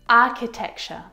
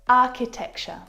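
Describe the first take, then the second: Both takes have the same delivery.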